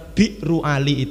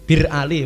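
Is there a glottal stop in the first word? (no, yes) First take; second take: yes; no. First: The first word has a glottal stop and ending. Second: The first word is short without a glottal stop. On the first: This is the original form of the name. "Jadi aslinya bir niku biru sumur" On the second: This is how Arabs commonly say the name. "Akhirnya hamzah hilang menjadi bir Ali"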